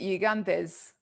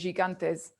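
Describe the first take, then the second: First: The word does not begin with a 'j' sound. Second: The word begins with a 'j' sound. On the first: This is the Greek way of saying it. "in Greek you'd pronounce it" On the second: This is the English way of saying it. "in English, obviously, you'd say"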